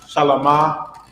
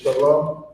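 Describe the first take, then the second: First: The word ends with an added ah vowel. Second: The word ends on the m sound. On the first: The speaker calls it wrong. "you see how it's not a ah at the end of shalom?" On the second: The speaker calls it right. "but it's shalom"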